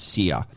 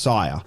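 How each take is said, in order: First: The name rhymes with 'ear'. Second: The name rhymes with 'fire'. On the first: This is how the spelling suggests it. The speaker calls it wrong. "it looks like the name is is pronounced Sear" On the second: This is how the player says it. The speaker calls it right. "but it's it's pronounced Sire"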